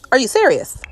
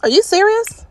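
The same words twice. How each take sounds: First: Are you serious with serious falling, fed-up and flat; repeated in weary disbelief; exasperated. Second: High, loud disbelieving cry of are you serious; can't believe what the sim just did; incredulous. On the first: Gamer repeating herself to the sims, weary and fed up. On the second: Gamer to her disobedient sims, high incredulous outburst. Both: Real, not acted. Sims keep picking babies up.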